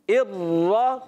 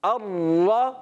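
No difference in how they are said.

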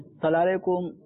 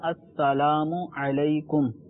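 First: The greeting is said in a clipped, slurred way. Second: The greeting is said with every sound full. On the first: The speaker calls it wrong. "تو یہ طریقہ غلط ہے" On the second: The speaker calls it right. "اصل جو تلفظ ہے وہ ہے"

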